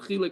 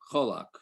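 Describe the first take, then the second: First: The first vowel sounds like i. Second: The first vowel sounds like o. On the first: This is the form the reference books give. The speaker calls it right. "it seems like the proper is achilek" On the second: This is the form from the speaker's upbringing. The speaker calls it wrong. "I grew up pronouncing this word cholak"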